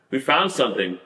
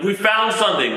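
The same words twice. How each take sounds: First: Said in the usual way. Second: Mild, higher-pitched mock yell; mock scream. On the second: Searcher announcing a find to the team, retold mock scream. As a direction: call it out as an imitated shout.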